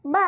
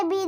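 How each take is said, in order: First: ब as a short "buh", not "bee"; phonics letter sound. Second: Said in the usual way. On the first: Shown as a demonstration. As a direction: say ब as the bare B sound. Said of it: "ब पढ़ेंगे". (ब की छोटी ध्वनि) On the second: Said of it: "हम इसे बी नहीं पढ़ेंगे".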